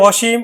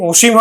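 First: অসীম as "aw-sheem"; open initial vowel. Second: অসীম as "o-sheem", the name; rounded o starting অসীম; closed initial o. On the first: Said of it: "অ এর মতে উচ্চারিত হবে". (অসীম-এর অ বিবৃত উচ্চারণ) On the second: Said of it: "তখন কিন্তু সংবৃত উচ্চারণ হবে". (অসীম-কে "ওশিম" উচ্চারণ) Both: Shown as a demonstration.

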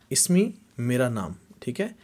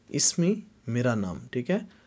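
Both takes have the same delivery.

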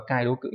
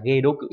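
First: "cai đố cự", opening on a cai syllable; the reading to avoid, "cai đố cự", starting with cai; mistaken reading. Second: "ghê đố cự", opening on a ghê syllable; correct reading. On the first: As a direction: say "cai đố cự" with cai in place of ghê. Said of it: "chứ không đọc là". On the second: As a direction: say "ghê đố cự" with ghê, not cai. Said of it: "đọc là ghê đố cự". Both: Shown as a demonstration.

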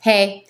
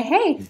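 First: Said in the usual way. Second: A high, teasing "Hey," sung up lightly; flirty hey. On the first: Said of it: "but I just say". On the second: Shown as a demonstration. Wife greeting husband with a flirty look. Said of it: "give him that little look".

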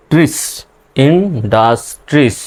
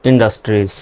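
First: industries drawn out very slowly; slowly enunciated industries; slow demo. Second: Said in the usual way. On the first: Shown as a demonstration. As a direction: stretch industries syllable by syllable. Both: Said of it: "এভাবে ভেঙে ভেঙে উচ্চারণ করবেন".

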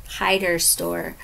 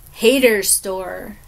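First: Hider Store, the corrected name, said slowly with a long i as in hide; slow careful fix, Hider like hide-er. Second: Hater Store said slowly as Hay-ter, the wrong name; drawn-out Hater with a long ay sound before the fix; misspoken name. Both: Real, not acted.

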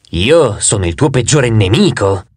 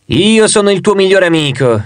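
First: Lower, slow hostile face; the two-faced god's sinister side, low and slow. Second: Higher, lightly voiced friendly face; the two-faced god's friendlier side, higher. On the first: Acted. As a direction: play the enemy face, pitched down and drawn out. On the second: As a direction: play the good face, pitched up. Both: Two faces, friend versus enemy.

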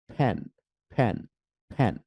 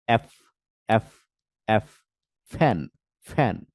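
First: ফ্যান with both lips, a strong puff like p. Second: ফ্যান with upper teeth on lip, air let out gently; soft f. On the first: Teacher showing the strong-air ফ্যান to learners. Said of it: "strong একটা wind বের হয়". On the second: Teacher showing the soft-air ফ্যান to learners. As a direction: breathe the f in ফ্যান out softly. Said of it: "বাতাসটা আস্তে বের হয়". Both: Shown as a demonstration.

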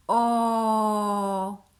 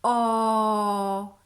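First: Whispered vowel. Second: A voiced, sustained, rounded "O"; clear open O. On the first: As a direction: whisper a long round "O" with no voice. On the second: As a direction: hold a full "O" with the lips in a circle. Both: Shown as a demonstration. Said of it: "Jeszcze raz pokażę".

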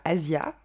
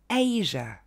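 First: Asia avec « zia », le i bien audible; prononciation à la française. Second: Asia en EÏ-je, première syllabe accentuée; prononciation anglaise. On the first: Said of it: "ne va pas se dire Asia". (Asia avec l'accent français) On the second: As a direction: dis Asia à l'anglaise, sans i final audible. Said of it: "On va dire". (Asia : « eï » appuyé puis « je ») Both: Shown as a demonstration.

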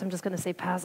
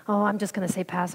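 First: Softer, dropped repeat of pass; muttered to herself. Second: Said in the usual way. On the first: Retold or imitated. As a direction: say it again under your breath. Repeats it under her breath.

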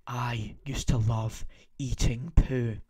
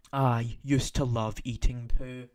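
First: Slow unvoiced whisper, holding back laughter. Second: Said in the usual way. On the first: Shown as a demonstration. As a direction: whisper it, trying not to crack up. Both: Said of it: "help me just try and say this without laughing".

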